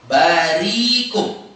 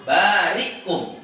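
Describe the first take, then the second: First: "barikum" slow, with long smooth "rii"; ibdal dengan ya. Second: "barikum" slow, with a stop after "ri"; hamzah sukun. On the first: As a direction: stretch "ri" in "barikum" straight into "kum". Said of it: "dengan ya". ("barikum" dengan ri panjang tanpa hamzah) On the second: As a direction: catch the breath between "bari" and "kum". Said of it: "Jadi keadaannya sukun". ("barikum" dengan hamzah mati setelah ri) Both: Shown as a demonstration.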